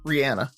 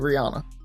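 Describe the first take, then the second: First: The name is said the way other countries say it. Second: The name is said the way the US says it. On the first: The speaker calls it right. "all the other countries pronounce it [name]" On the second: The speaker calls it wrong. "only the U S pronounces it Rihanna"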